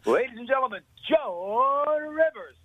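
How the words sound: It is said in a booming TV announcer voice.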